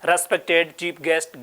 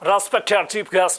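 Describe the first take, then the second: First: It is spoken with an Indian English accent. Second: It is spoken with a foreign English accent. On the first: "India की दृष्टि से कैसे पढ़ते हैं?" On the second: "foreign के हिसाब से पढ़ते हैं तो वो कैसे पढ़ते हैं?"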